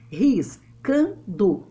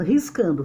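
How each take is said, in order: First: "Riscando" split slowly, Ris, can, do; measured scansion of "Riscando", a pause after each syllable. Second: Said in the usual way. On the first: Shown as a demonstration. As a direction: break "Riscando" into three separate beats. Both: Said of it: "vamos separar a sílaba métrica".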